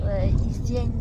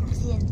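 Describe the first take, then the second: First: "hygiène" slurred as "izjène", tongue numb; "hygiène" mumbled with the g lost. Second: "hygiène" clipped to "zjène", numb; second "hygiène" cut short and slurred; numb tongue. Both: Real, not acted. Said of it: "J'arrive plus à dire hygiène".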